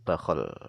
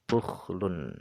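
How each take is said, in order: First: Both syllables carry an a vowel. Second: A u vowel, then kh without a vowel. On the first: "dibaca dengan fathah kha' yang bertitik satu" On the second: "dibaca dengan dhammah wasukun"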